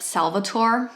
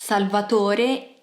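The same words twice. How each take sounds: First: The name is said with an English pronunciation. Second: The name is said with an Italian pronunciation. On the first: The speaker calls it wrong. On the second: The speaker calls it right.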